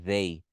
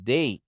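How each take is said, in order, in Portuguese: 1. Começa com um som de th sonoro. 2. Começa com um d simples. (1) "vibrando, fica uma, vi- uma vibração ali" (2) "som de D mesmo"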